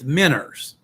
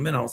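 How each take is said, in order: First: The word ends with an 'er' sound. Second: The word ends with an 'oh' sound. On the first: This is the family's Appalachian pronunciation. "my grandma and grandpa call them minners" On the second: This is the standard classroom pronunciation. "they were saying minnows"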